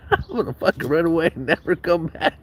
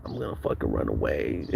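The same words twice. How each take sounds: First: Higher, whiny put-on kid voice, half laughing; mock crying kid. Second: Mock sulky kid. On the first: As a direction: ham up a sulking kid threatening to run away. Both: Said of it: "I was, like, crying in my room".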